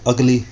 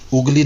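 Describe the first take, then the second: First: The first vowel sounds like the 'u' in cup. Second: The first vowel sounds like the 'u' in put. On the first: The speaker calls it right. "यह है अगली" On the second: The speaker calls it wrong. "उगली नहीं है"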